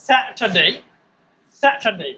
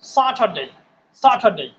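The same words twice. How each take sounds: First: স্যাটারডে with "sae" as first vowel; model pronunciation. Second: স্যাটারডে with an open "saa" first vowel; alternative pronunciation. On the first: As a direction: say স্যাটারডে as "SAE-ta-dei", falling. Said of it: "তাহলে কি হলো?". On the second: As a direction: say স্যাটারডে as "SAA-tha-dei", falling. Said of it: "আর একটা উচ্চারণ আছে". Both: Shown as a demonstration.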